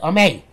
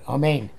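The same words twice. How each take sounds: First: The word ends without its final n sound. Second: The word ends with a full n sound. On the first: The speaker calls it wrong. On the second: The speaker calls it right.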